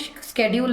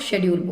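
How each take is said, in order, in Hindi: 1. यह शब्द 'sk' ध्वनि से शुरू होता है। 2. यह शब्द 'sh' ध्वनि से शुरू होता है। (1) "स्केड्यूल नहीं बोलते हैं" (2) "अब हम लोग शेड्यूल बोलते हैं"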